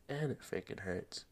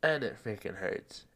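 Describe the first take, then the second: First: Quiet. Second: Said in the usual way. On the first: Real, not acted. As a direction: drop and it freaking hurts to a hush. Repeats line softer.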